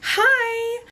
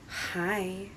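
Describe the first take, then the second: First: It is high and tense, with held breath. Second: It is soft and breathy, on an exhale. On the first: It sounds nervous and blends in. The speaker calls it wrong. "we tend to raise our voice... We tend to hold our breath and go" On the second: It sounds seductive and calming. The speaker calls it right. "Exhale, and on the exhale, you go"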